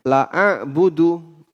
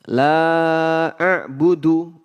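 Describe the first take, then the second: First: The vowel in la is cut short. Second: The vowel in la is held long. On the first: Truly I will worship. The speaker calls it wrong. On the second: I will not worship. The speaker calls it right.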